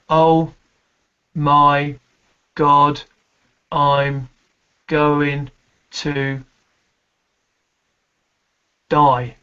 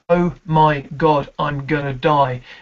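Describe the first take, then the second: First: There is a held pause before the last word. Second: The words run together without a pause.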